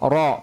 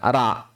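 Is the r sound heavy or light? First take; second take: heavy; light. First: The r is heavy with a rounded vowel. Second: The r is light with an open vowel. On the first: The speaker calls it right. "Ro-nya jangan lupa dibaca tebal" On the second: The speaker calls it wrong. "bukan ra"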